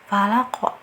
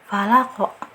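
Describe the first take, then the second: No difference in how they are said.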